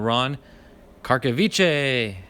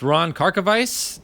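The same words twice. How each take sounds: First: The surname has a different, alternate pronunciation. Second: The surname has its usual, standard pronunciation. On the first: "if Stash were to be saying it with me, he'd be saying" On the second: "that's the proper way"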